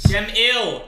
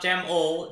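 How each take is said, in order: First: The second syllable is pronounced with an 'ill' sound. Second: The second syllable is pronounced with an 'ol' sound. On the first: The speaker calls it right. "Gem Ill, not Gem Ol" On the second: The speaker calls it wrong. "not Gem Ol"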